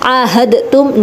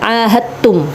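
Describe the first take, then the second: First: The d is pronounced separately before the t. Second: The d is merged into the following t. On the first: The speaker calls it wrong. "Ahadtum enggak" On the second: The speaker calls it right. "dimasukkan kepada taknya"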